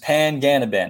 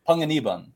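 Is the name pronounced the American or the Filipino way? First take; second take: American; Filipino. First: The name is said with an American English pronunciation. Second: The name is said with a Filipino pronunciation. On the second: "like my dad's family says it"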